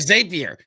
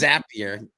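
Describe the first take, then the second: First: The name does not rhyme with happier. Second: The name rhymes with happier. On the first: The speaker calls it wrong. "or Zapier" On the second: The speaker calls it right. "it's Zapier makes you happy"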